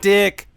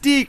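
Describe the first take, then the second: First: The vowel is short, like 'dick'. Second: The vowel is long, like 'deek'. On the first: The speaker calls it wrong. "not Dick" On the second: The speaker calls it right. "It's Deke"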